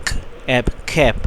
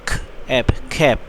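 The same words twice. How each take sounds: The two takes are said the same way.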